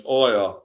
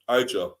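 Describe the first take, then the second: First: The name is said without a J sound. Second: The name is said with a J sound. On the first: The speaker calls it right. "The J is silent" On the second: The speaker calls it wrong. "they've been calling him Aja"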